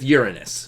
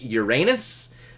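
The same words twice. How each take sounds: First: The word begins with a sound like 'urine'. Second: The word ends with a sound like 'anus'. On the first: "you either got to deal with anus or urine" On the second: "I don't want to have to say anus all the time"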